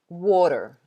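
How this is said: The middle t is a soft, flapped sound. "in American English, they would say water"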